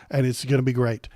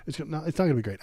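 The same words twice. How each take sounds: First: Sarcastic. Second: Said in the usual way. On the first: Shown as a demonstration. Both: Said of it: "I'm being s-, sarcastic".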